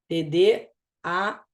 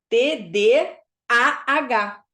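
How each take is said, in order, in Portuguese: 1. Os sons A e H se fundem em um só. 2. Os sons A e H são pronunciados separadamente. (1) "Parece que você comeu o A" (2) "as pessoas forçam a falar assim"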